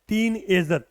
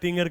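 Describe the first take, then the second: First: All the syllables of the word are said fully. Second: The word is squeezed into a shortened form. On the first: The speaker calls it right. "Actual में word क्या होता है" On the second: The speaker calls it wrong. "इसको खराब करके बना देते हैं कि भाई टिंगर"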